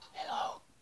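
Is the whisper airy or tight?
airy. It is a normal, airy breath whisper.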